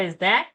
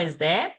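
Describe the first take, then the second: No difference in how they are said.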